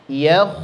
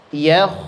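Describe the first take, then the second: Both takes have the same delivery.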